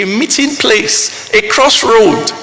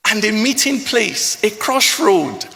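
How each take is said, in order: First: The repeat hit louder and slower; swelling, slowed declamation. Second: Said in the usual way. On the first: Acted. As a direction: land the repeat with weight. Repeated phrase, stronger.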